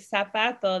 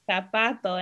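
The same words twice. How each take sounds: First: It is said with a Latin American accent. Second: It is said with a Spain Spanish accent.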